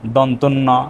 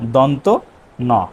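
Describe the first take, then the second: First: An extra n sound joins the two words. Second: The two words are said without an extra n sound. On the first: The speaker calls it wrong. "আমরা যে বলি দন্তের ন, দন্তন ন, আসলে ভাষাটা এমন না" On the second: The speaker calls it right. "উচ্চারণটা হবে দন্ত ন"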